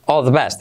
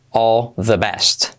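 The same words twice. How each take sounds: First: Quick run-together all the best; extreme contraction. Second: Very slow, each word laid out; slow explained. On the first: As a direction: blend it into one breath. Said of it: "luego la contracción extrema". (contracción extrema, rápida y ligada) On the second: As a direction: spell it out slowly for learners. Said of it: "primero explicado lento". (despacio, palabra por palabra) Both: Shown as a demonstration.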